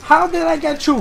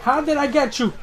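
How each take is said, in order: First: Higher and louder squeal of disbelief; excited repeat. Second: Raised, lively disbelief; amazed question. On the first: Gamer repeating his amazement at the opponent, giddy and loud. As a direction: push it up into a giddy yelp. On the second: Gamer asking the opponent how he landed it, amazed. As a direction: ask it half-laughing in wonder. Wonders at lucky hit. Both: Real, not acted.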